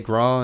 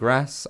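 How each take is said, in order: First: The word ends without an s sound. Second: The word ends with an s sound. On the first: The speaker calls it right. "you're meant to say gra" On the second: The speaker calls it wrong. "instead of grass"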